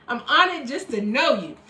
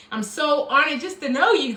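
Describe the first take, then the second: First: "honored" pushed up front, the rest falls away; repeating the thanks with the weight moved to "honored"; stress on honored. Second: "know" rises and falls, leaning on it; sincere thanks with "know" carrying the line; stress on know. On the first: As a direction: hit "honored" hard, then let "know" sink. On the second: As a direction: land the weight on "know", not "honored". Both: Real, not acted.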